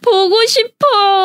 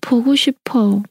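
First: It is said in a cute, playful way. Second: It is said in a sad, longing way.

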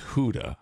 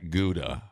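First: The word begins with a breathy H-like sound. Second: The word begins with a hard G sound. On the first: The speaker calls it right. "It's Huda" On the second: The speaker calls it wrong. "Gouda is not Gouda"

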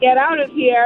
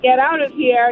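First: It is said in a general, non-Boston accent. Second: The same.

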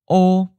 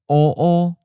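First: A single syllable on a high level pitch. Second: Doubled syllable, first mid level, second high level. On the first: Dark. "we'll first say the adjective by itself" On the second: A little dark. "the reduplicated version has both the changed tone and the original tone"

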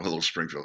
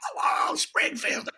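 First: It is said quietly, as if to one person. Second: It is said loudly, as if to a huge crowd.

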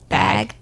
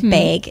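First: The vowel has a neutral accent. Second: The vowel has a Midwestern accent. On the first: "instead of bag" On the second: "I don't have a strong Midwestern accent anymore, but it does come out like I say bag"

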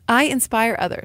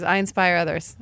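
First: It is said with conviction, meaning it. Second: It is said half-heartedly, without conviction.

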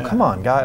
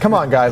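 First: It is said in a gentle, soft way. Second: It is said in a forceful, rallying way. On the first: The team is being encouraged gently. "Cornett is more of the kind of soft approach" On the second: The team is being pushed to rally hard. "more like the coach that can kind of, say, come on, guys, let's rally about it"

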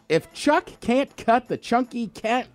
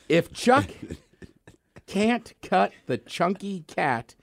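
First: It is said quickly, rushing through the words. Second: It is said at an ordinary, careful pace. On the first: "Three times fast" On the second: "one time through"

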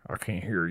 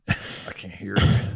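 First: It is said in a Texas accent. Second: It is said in the speaker's plain accent.

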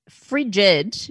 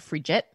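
First: The word ends without a t sound. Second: The word ends with a t sound. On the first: The speaker calls it right. "It's frigid, which means like cold" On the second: The speaker calls it wrong. "I used to always say it like frigid ... with the T, but it's not"

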